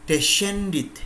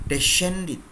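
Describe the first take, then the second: No difference in how they are said.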